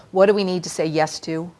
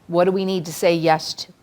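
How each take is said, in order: Both takes have the same delivery.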